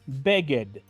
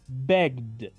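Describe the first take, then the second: First: The ending is said as an extra syllable. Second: The ending is a plain D with no vowel. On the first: The speaker calls it wrong. "Es muy común decir begged... pero es incorrecto" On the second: The speaker calls it right. "Pronuncio la ed como una letra D y esta E prácticamente queda muda"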